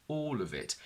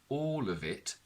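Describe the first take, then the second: The two takes are said the same way.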